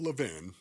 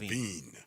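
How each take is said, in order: First: The last syllable has a short i vowel. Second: The last syllable has a long ee vowel. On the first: The speaker calls it wrong. "Not Levin" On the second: The speaker calls it right.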